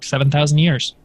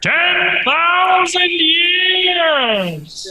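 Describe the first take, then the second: First: It is said in his normal voice. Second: It is said in a booming put-on voice.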